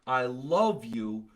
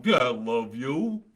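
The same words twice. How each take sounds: First: Slow, sincere declaration; plainly heartfelt, drawn-out love. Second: Slow, drawn-out sarcasm; mocking, insincere love; sarcastic. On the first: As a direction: say it slowly and mean it. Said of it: "See the difference?". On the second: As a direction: drag it out as if you don't mean it. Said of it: "maybe I'm being sarcastic going". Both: Shown as a demonstration.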